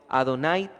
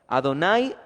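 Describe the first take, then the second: Both takes have the same delivery.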